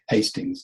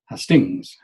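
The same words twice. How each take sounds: First: The stress is on the first syllable. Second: The stress is on the second syllable. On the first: The speaker calls it right. "So we say Hastings" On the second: The speaker calls it wrong. "stress it the wrong way around"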